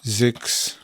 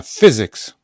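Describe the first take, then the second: First: "Physics" split in two with a long gap; syllable-by-syllable. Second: "Physics" loud on the first syllable; first-syllable stress. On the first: Teacher dictating physics to learners, separated syllables. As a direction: break "Physics" slowly into fy and zyks. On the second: Teacher showing the first syllable is accented, loud stress. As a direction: punch the start of "Physics". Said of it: "pierwsza jest akcentowana". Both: Shown as a demonstration.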